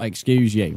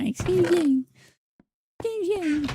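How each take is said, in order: First: Said in the usual way. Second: Much higher squeaky mocking voice; voice impression. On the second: Streamer mimics a chatter, high squeaky mocking voice. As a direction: mimic them in a prissy high pitch. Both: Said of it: "I've just done a very good voice impression".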